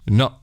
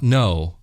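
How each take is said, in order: First: It is said short with an Italian sound. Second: It is said with a drawn-out American sound. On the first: The speaker calls it right. "just say no, no" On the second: The speaker calls it wrong. "not no"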